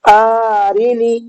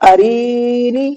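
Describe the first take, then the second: First: Only the first vowel is drawn out. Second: Only the middle vowel is drawn out. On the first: "ये गलत हो गया, हमज़ा खिंच गया" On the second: "ये भी गलत हो गया, यहाँ पर रा खिंच गया"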